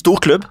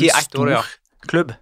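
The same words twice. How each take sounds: First: Stor and klubb run together as one word. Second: A short pause separates stor and klubb. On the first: It is a club with a long record of trophies. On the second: It is a club that is simply big.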